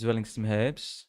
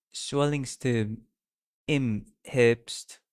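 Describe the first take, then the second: First: Zwellingstem Herbst with a hard English Z; wrong first try. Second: Swellingstem im Herbst, slow, starting with an S sound; careful German try. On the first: Streamer misreading the German title, Z pronounced. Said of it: "It's not Zwellings". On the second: Streamer correcting the German title, slow S sound. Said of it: "It's not Z". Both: Shown as a demonstration.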